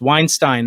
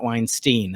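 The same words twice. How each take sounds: First: The last syllable rhymes with 'Einstein'. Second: The last syllable does not rhyme with 'Einstein'. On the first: The speaker calls it right. "it's Weinstein" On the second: The speaker calls it wrong. "not Weinstein"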